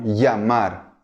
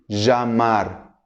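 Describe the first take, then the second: First: The ll is said like an English y. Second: The ll is said like a zh sound. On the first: This is how it is said in some Latin American places. "va a ser pronunciado como si fuera un I, E o I A" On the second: This is how it is said in some other countries. "como si fuera uma J do português"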